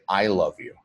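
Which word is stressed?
I. The emphasis falls on the word I. It is the speaker, not anyone else. "change the emphasis to on to the word I"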